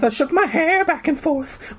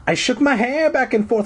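First: Very high voice. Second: High voice. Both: Acted. Retake in strange voice.

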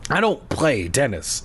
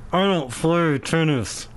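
First: Said in the usual way. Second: Muffled words through clenched teeth. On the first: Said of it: "I replied between clenched teeth". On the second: Shown as a demonstration. Demonstrating how the tennis reply sounded, clenched teeth. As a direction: grit your teeth and squeeze the words out. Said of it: "probably how it sounded with clenched teeth".

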